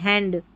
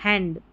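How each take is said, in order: The two takes are said the same way.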